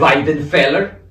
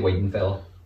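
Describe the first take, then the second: First: The name is over-pronounced in a foreign-sounding way. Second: The name is said plainly in a local way. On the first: The speaker calls it wrong. "commentators that over-pronounce" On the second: The speaker calls it right. "Just say Weidenfeller"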